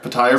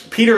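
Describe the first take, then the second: First: The name is said with a different first vowel. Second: The name sounds like the ordinary name Peter. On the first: This is how the audiobook says it. "I go by the pronunciations from the audiobook" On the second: This is how the show says it. "It's Peter in the show"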